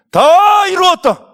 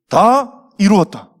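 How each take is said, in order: First: High, drawn-out shout; loud cry. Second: Said in the usual way. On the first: Acted. Jesus on the cross just before death, loud triumphant cry. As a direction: cry out at full voice, stretching the words. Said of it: "크게 소리쳤어요". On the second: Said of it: "이런 말씀하셨어요".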